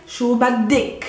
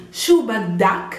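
First: "baddik" with a short "i" in the last syllable; feminine ending. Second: "baddak" with an open "a" in the last syllable; masculine ending. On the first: Teacher shows the form said to a female, "baddik" ending in "-ik". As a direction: say "shu baddik" ending in a clear "-ik". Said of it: "If I'm talking to a female". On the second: Teacher shows the form said to a male, slow "baddak" ending in "-ak". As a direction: say "shu baddak" slowly, ending in "-ak". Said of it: "I'm talking to a male". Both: Shown as a demonstration.

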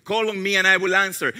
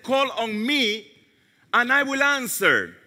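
First: Fast, matter-of-fact repetition; brisk recap of the verse; quick restatement. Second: Slow, weighty quote of scripture; unhurried reverent reading; slow and solemn. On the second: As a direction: let each word land slowly. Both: Shown as a demonstration.

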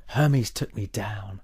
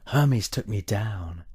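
Both takes have the same delivery.

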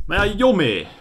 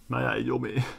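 First: High, loud frustrated yell; panicked yell of being stuck. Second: Said in the usual way. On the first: Real, not acted. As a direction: shout it in panic.

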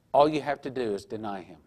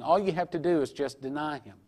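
First: A tempting whisper; whispered temptation. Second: Said in the usual way. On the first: Retold or imitated. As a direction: breathe it like a sly lure. Tempter's final coaxing line.

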